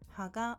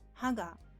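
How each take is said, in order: First: The pitch is low on ha, higher on ga. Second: The pitch is high on ha, lower on ga. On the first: It means leaf. "has lower pitch than the following particle" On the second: It means tooth. "has higher pitch than the following particle"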